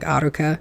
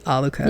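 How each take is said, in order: First: The middle consonant is a flapped R. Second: The middle consonant is an L sound. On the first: The speaker calls it right. "a flipped R" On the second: The speaker calls it wrong. "they don't say it like Aluka in the Japanese version"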